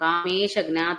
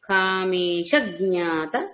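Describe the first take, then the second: First: The syllable before jna gets no extra stress. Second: The syllable before jna is strongly stressed. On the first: The speaker calls it wrong. "అనట్లేదు" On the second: The speaker calls it right. "మనం చెప్పుకున్న అఘాత ప్రయోగం"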